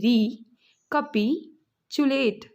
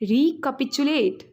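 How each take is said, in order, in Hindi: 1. शब्द को अलग-अलग अक्षरों में तोड़कर बोला जाता है। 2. शब्द को एक इकाई की तरह, सहजता से बोला जाता है। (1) "रिकैपिचुलेट से मैं तोड़ती हूँ" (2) "तो कैसे बोलेंगे जोड़ के?"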